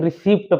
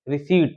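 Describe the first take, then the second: First: The P sound is pronounced before the final T. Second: The P sound is silent before the final T. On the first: The speaker calls it wrong. "बहुत से लोग पढ़ते हैं रिसिप्ट" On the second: The speaker calls it right. "पी silent है"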